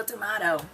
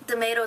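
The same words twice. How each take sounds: First: Tomato with "mah" in the middle; alternative tomato. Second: Tomato with "may" in the middle; American tomato. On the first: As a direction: say tomato as "tuh-MAH-toe". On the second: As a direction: say tomato as "tuh-MAY-toe". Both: Shown as a demonstration. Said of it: "anybody who says tomato".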